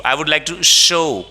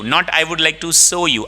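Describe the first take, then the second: First: "show" with a clear sh sound; the correct "show", starting with sh; right sh in show. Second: "show" said as "so" with an s sound; "so you" instead of "show you", the wrong way. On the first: ("show" में सही श की आवाज़) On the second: ("show" को "सो" बोलना, गलत तरीका) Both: Shown as a demonstration.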